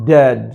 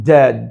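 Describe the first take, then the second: Both takes have the same delivery.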